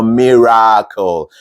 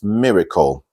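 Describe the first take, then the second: First: The middle vowel is a full open vowel. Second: The middle vowel is reduced and weak. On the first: The speaker calls it wrong. "not miracle, not an as in open vowel" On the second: The speaker calls it right. "It's miracle"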